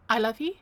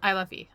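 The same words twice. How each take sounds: First: The voice rises at the end, like a question. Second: The voice falls at the end, like a statement. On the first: It sounds unsure, like asking. The speaker calls it wrong. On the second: It sounds certain, like a declaration. The speaker calls it right.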